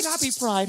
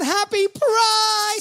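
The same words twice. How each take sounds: First: Said in the usual way. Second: High, slow, stretched-out greeting; drawn-out cheer. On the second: Acted. Host greeting the Pride crowd, a drawn-out high cheer. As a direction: sing out the greeting long and high.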